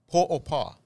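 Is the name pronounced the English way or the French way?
French. The name is said with French pronunciation. This is how the capital of Haiti is named. "Is how you say it with a French"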